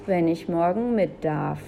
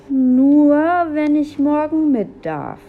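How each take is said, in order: First: Said in the usual way. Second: High, loud indignant mimicry; loud, high-pitched scornful repeat; mocking echo. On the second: A narrator's reading. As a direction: parrot a little brother in outrage. Julia mockingly repeats brother's condition.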